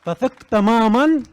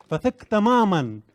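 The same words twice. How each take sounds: First: تمامًا stretched slow, louder and higher; emphatic repetition. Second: تمامًا said again slowly, less loud, falling; softer echo. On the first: Speaker urges the audience to trust fully, slow emphatic call. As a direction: push hard on تمامًا, slowly. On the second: Speaker repeats his call to trust, calmer echo. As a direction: repeat فثق تمامًا more gently, settling it. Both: Acted. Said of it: "فثق تمامًا، repeated".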